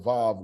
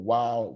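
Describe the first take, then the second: First: The word begins with a V sound. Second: The word begins with a W sound. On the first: This is the modern pronunciation. "they're pronouncing the uh, the Vav as a Vav" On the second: This is the ancient pronunciation. "which would make the W sound"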